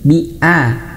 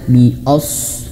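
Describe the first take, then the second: First: The vowel after bi sounds thin, like a. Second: The vowel after bi sounds thick, like o. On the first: The speaker calls it right. "Hamzah itu tipis" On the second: The speaker calls it wrong. "A, jangan o ya. Jangan bi as"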